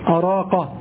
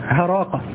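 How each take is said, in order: First: The word begins with a glottal stop. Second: The word begins with an h sound. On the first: "تسمع أراقة" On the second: "تسمعها هراقة، ... أن الهمزة قلبت هاء، هذا شاذ"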